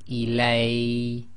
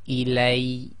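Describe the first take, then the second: First: The final ya sound is drawn out long. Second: The final ya sound is short and emphasized. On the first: The speaker calls it wrong. "you cannot say ilay, that is too long" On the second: The speaker calls it right. "you put more emphasis on the ya and cut it down to one long"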